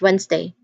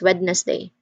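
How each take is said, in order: First: The middle d sound is left silent. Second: The middle d sound is clearly pronounced. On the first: The speaker calls it right. "It's Wednesday. That's just how we pronounce it" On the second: The speaker calls it wrong. "we do not say Wednesday as Wednesday"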